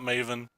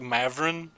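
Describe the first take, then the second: First: The name is said without an r sound. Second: The name is said with an r sound. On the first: The speaker calls it wrong. "that's not how you pronounce it at all" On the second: The speaker calls it right. "It's probably like Mavrin"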